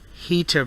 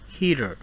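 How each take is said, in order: First: The middle T is a crisp, hard T. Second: The middle T is a soft, quick tap.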